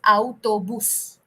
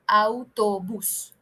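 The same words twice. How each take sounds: First: It is pronounced with Spanish vowel sounds. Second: It is pronounced with Spanish vowel sounds.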